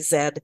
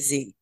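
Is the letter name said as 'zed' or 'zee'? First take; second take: zed; zee. First: The letter is said as 'zed'. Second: The letter is said as 'zee'. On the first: The listener is Canadian. "if I'm talking to a Canadian, I'll say Zed" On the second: The listener is American. "If I'm talking to an American, I say Z"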